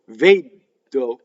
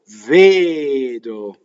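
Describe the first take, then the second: First: The d is stopped and held long. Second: The d is short, with no stop. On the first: The speaker calls it wrong. "If you stop D, vedo, it's double D, and it's wrong" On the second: The speaker calls it right. "You don't stop"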